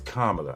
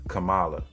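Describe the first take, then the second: First: The first syllable sounds like the word 'comma'. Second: The first syllable does not sound like 'comma'. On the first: The speaker calls it right. "So it's Kamala" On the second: The speaker calls it wrong. "It's not Kamala"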